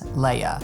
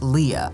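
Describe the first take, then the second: First: The name is said with a French pronunciation. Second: The name is said with a plain English pronunciation. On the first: The speaker calls it right. "it has the French pronunciation" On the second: The speaker calls it wrong. "I don't think their name is pronounced Leah"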